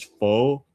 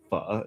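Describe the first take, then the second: First: The vowel is smooth with no catch. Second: The vowel stalls with a catch in it. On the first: "People like pretty much say like this" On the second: "the accent marker makes it sound like pho. It stalls"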